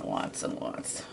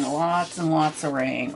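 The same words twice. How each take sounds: First: Playful whispered echo of lots and lots, much softer. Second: Said in the usual way. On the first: Pretend. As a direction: breathe the words lots and lots out in a soft mock whisper. Whispered repeat of the phrase.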